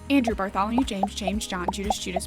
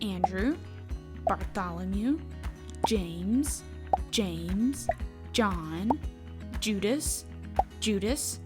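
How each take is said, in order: First: The names are said at the quickest pace. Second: The names are said at a normal pace.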